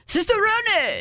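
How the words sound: It is said with an Italian accent.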